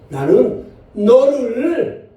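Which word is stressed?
너를. The stress is on the word 너를. The one loved is you, not someone else. "너는 여기를 한번 이걸 강조해주면"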